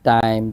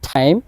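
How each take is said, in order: First: The t is hard and has no puff of air. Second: The t is released with a strong puff of air. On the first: The speaker calls it wrong. "এতদিন আমরা এটাকে বাংলা টয়ের মতো করে উচ্চারণ করতাম" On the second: The speaker calls it right. "শুদ্ধভাবে হবে ঠি ঠি। তাহলে এভাবে বলতে হবে"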